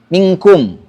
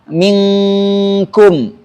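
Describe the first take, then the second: First: The n is pronounced as a clear, distinct n. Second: The n is hidden in a two-beat nasal hum. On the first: The speaker calls it wrong. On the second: The speaker calls it right.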